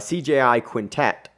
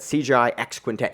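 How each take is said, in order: First: The letter X is left out before Quintet. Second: The letter X is spoken aloud before Quintet. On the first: The speaker calls it right. "that X is actually silent" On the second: The speaker calls it wrong. "I pronounced it just because I knew you would make, you would say that"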